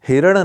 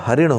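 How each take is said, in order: First: The first syllable has an 'i' vowel. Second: The first syllable has an 'a' vowel. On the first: The speaker calls it wrong. "नहीं होता है" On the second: The speaker calls it right. "होता है"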